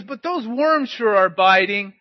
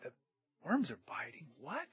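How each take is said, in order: First: Loud, slow hollered remark; calling back. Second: Puzzled thought. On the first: Fishing boy tells the driver about worms, calling back. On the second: Driver thinks back a mile later, puzzled. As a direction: puzzle it over to yourself, then a rising double take. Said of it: "he thought". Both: Retold or imitated.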